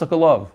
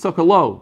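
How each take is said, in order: First: The name ends with a clear v sound. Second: The name ends on a vowel, no v sound. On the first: This is how it is said in Israel. "but in Eretz Yisrael, it's Sokolov" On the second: This is how it is said outside Israel. "Sometimes it's a silent, what was it? W"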